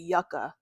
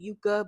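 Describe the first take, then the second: First: The first syllable sounds like 'yuck'. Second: The first syllable does not sound like 'yuck'. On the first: The speaker calls it right. "it sounds like you're saying yuck" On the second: The speaker calls it wrong. "I was saying it wrong"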